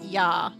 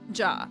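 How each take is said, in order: First: It is pronounced the German way. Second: It is pronounced the English way. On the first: The speaker calls it right. "J A in German is pronounced ja" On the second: The speaker calls it wrong. "instead of ja"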